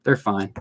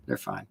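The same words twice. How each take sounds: First: Said in the usual way. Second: Much lower, much softer mutter; muttered reassurance. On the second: Real, not acted. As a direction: mumble it under your breath. Repeated very low and soft.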